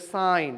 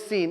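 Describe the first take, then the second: First: The vowel is a long eye sound. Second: The vowel is a long ee sound. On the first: The speaker calls it right. "it's a sine" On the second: The speaker calls it wrong. "don't mem how do you call pronounce like seen"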